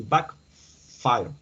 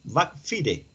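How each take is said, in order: First: "backfire" said English-style, fire as "fai-r"; English pronunciation. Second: "Backfire" read Spanish-style, ending "FEE-reh"; spelling pronunciation. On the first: Real, not acted. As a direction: draw out "backfire" slowly, ending like English "fire". Reading the English term aloud. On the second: Shown as a demonstration. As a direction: sound out "Backfire" letter by letter as bak-FEE-reh. Sounds it out as spelt to check.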